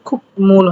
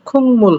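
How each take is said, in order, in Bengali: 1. প্রথম অক্ষরটি k ধ্বনিতে শেষ হয়। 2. প্রথম অক্ষরটি ng ধ্বনিতে শেষ হয়। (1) "খুব মূল হওয়ার কথা" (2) "কিন্তু খুং মূল হবে"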